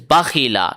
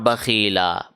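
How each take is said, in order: First: The vowel after kh is short. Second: The vowel after kh is stretched long. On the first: The speaker calls it right. "It is bakhila" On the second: The speaker calls it wrong. "not bakhila"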